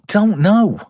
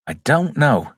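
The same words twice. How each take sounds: First: High-pitched "know", falling at the end; high bewilderment. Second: Said in the usual way. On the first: Real, not acted. Reviewer puzzling over Reeve's fee, high bewilderment on "know". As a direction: throw "I don't know" up high. Answers own budget question, first take.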